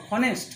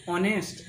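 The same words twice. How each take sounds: First: "হনেস্ট" with an audible H in front; H pronounced. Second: "অনেস্ট" starting straight on the O vowel; "অনেস্ট", opening on "ও" with no H; silent H. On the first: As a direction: wrongly voice the silent H, "হনেস্ট". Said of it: "এই যদি উচ্চারণ করে নিই". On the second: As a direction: drop the H, say "অনেস্ট". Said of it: "আমরা উচ্চারণ করি ও থেকে". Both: Shown as a demonstration.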